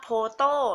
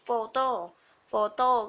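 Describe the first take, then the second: First: The word begins with a p sound. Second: The word begins with an f sound. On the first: The speaker calls it wrong. "จะไม่อ่านว่า" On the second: The speaker calls it right. "เราจะอ่านว่า"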